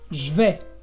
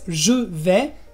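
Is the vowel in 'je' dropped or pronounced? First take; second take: dropped; pronounced. First: The vowel in je is dropped. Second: The vowel in je is fully pronounced.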